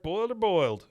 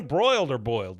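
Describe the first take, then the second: First: First "boiled" said without the R, same as the second "boiled"; slip, saying "boiled" for "broiled"; "boiled" twice, no R in either; misread word. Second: Said in the usual way. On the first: Real, not acted. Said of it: "Broiled or boiled, sorry".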